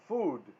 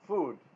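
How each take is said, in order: First: The vowel is a long 'oo' sound. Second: The vowel is a long 'oo' sound.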